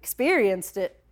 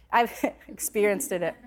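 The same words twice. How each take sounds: First: "Experienced it" said cleanly, "experienced" then "it" with no extra d; careful redo of "Experienced it"; corrected experienced it. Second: "experienced it" said as "experienced-did it", an extra d sound before "it"; slip on experienced. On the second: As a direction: stumble into "experiencedit" with a stray d and a small laugh. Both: Real, not acted. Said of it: "I said it again".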